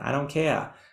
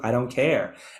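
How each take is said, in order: First: It is said in a Boston accent. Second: It is said in the speaker's ordinary accent.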